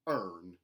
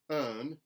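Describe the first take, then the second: First: The R sound is hard and strong. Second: The R sound is dropped. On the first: "mountain, where the R sounds are retained, but they are hardened" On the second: "a general Southern dropped R"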